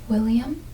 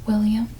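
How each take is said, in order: No difference in how they are said.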